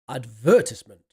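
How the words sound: The word has a British pronunciation. "In British English, they say advertisement"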